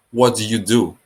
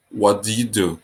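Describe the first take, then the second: No difference in how they are said.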